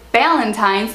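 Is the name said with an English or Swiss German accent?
English. It is said with an English accent.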